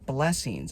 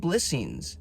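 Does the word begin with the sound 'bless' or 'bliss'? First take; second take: bless; bliss. First: The first syllable sounds like 'bless'. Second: The first syllable sounds like 'bliss'. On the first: Receiving good things makes one less. The speaker calls it wrong. "not blessings? I don't want to be less" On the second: Receiving good things is a fullness. The speaker calls it right. "I call them blessings"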